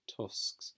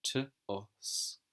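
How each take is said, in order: First: Breathy unvoiced tusks; whispered tusks. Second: Said in the usual way. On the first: Shown as a demonstration. Teacher whispering the word tusks to pupils.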